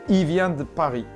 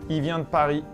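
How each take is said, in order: Both takes have the same delivery.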